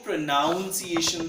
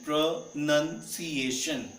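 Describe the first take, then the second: First: The second syllable sounds like 'noun'. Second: The second syllable sounds like 'nun'. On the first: The speaker calls it wrong. "कुछ लोग इसको प्रोनाउंसिएशन बोलते हैं" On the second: The speaker calls it right. "there is no noun in it"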